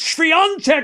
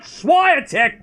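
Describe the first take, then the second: First: The name is said with its native pronunciation. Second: The name is said with an anglicized pronunciation. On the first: The speaker calls it right. "it's Swiatek" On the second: The speaker calls it wrong. "it's not Swiatek"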